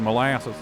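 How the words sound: It is said in a Southern accent. "if you want to go south, you have to say molasses"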